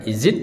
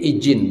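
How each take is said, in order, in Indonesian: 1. Konsonan tengah itu bunyi z. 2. Konsonan tengah itu bunyi j. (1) "pakai Z" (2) "hanya bisa mengucapkan J"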